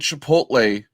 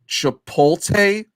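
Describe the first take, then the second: First: The T sound comes before the L sound. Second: The L sound comes before the T sound. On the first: The speaker calls it right. "calling Chipotle Chipotle" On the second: The speaker calls it wrong. "like basically mixing up the L and the T"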